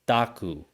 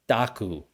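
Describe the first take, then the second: Both takes have the same delivery.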